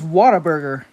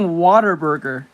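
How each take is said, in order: First: The name begins like the word 'whatta'. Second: The name begins like the word 'water'. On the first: The speaker calls it right. "I think it's Whataburger, not Waterburger" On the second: The speaker calls it wrong. "I've been saying Waterburger, but I don't think that's how it's called"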